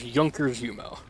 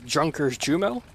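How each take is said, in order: First: The name is said with German pronunciation. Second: The name is read as spelled, English-style. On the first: The speaker calls it right. "but you pronounce it as" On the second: The speaker calls it wrong. "it's spelled as"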